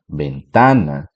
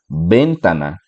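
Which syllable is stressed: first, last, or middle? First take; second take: middle; first. First: The stress is on the middle syllable. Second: The stress is on the first syllable.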